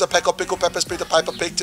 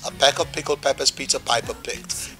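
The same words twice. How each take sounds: First: It is said at the fastest pace. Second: It is said a little faster.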